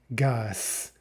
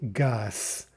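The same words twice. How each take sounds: First: The word ends with a voiceless S sound. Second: The word ends with a voiceless S sound.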